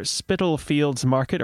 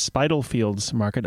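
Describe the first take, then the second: First: "Spitalfields" with short i, like spittle; first pronunciation variant. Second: "Spitalfields" with long i, like spy-tal; alternative pronunciation. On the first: Host reading out the market's name, "Spitalfields" said as spittle-fields. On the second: Host unsure of the market's name, "Spitalfields" said as spy-tal-fields. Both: Shown as a demonstration. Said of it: "or perhaps Spitalfields Market".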